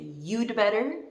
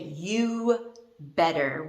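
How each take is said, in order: First: 'Had' is reduced to a short 'd' sound. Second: No 'had' or 'd' sound is heard at all. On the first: "We say you'd better" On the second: "we actually say you better. We don't even pronounce the D"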